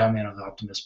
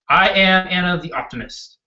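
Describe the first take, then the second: First: It is said flatly with little energy. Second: It is said strongly with passion and conviction. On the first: The speaker calls it wrong. "Don't sit there like this and say" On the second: The speaker calls it right. "You have to put the passion behind it"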